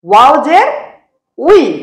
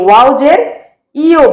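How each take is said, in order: First: The final syllable sounds like 'wi'. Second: The final syllable sounds like 'yo'. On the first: The speaker calls it right. "হবে ... ওয়াও জের উই, এভাবে উচ্চারিত হবে" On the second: The speaker calls it wrong. "অনেকে এই ওয়াও জের ইও বলে, ... কিন্তু এভাবে হবে না"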